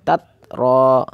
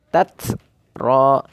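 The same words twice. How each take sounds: First: The first t has no breath after it. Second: The first t has audible breath after it. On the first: The speaker calls it wrong. "menghilangkan sifat hamasnya saat sukun... Ini juga suatu kesalahan" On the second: The speaker calls it right. "Harus ada hamasnya"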